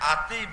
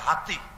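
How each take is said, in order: First: The word begins with a vowel, no h. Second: The word begins with an h sound. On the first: This is the village dialect form. "গ্রামের ভাষায় কয় আতি" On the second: This is the standard book form. "বই পুস্তক হইলো হাতি"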